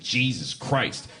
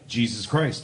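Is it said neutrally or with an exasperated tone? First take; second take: exasperated; neutrally. First: It is said with an exasperated, swearing tone. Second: It is said plainly, without an exasperated tone.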